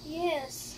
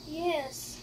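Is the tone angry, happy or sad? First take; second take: sad; sad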